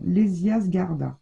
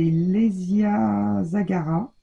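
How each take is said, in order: First: Zgarda said with z and g run together, then -rda; the fix: Zgarda, zg cluster and a d before the final a; corrected take, Zgarda, no vowel after the z; corrected name. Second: Zagara said as za-ga-ra, three open syllables, no d; the slip: Zagara with a vowel between z and g; wrong first try, Zagara, no d before the last a; mispronounced name. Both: Real, not acted.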